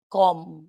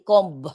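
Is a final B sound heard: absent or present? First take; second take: absent; present. First: The word ends without a B sound. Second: The word ends with a B sound. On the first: The speaker calls it right. "You pronounce it com without B" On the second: The speaker calls it wrong. "Hindi comb"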